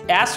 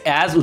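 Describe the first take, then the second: First: The word ends with an s sound. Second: The word ends with a z sound. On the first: The speaker calls it wrong. "অ্যাস উচ্চারণ হয় না" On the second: The speaker calls it right. "অ্যাজ উচ্চারণ হয়"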